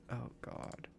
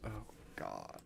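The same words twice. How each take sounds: First: Whispered exasperation; whispered despair at the puzzle. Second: Said in the usual way. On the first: Real, not acted. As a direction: breathe it out as a whisper. Repeats it in a whisper.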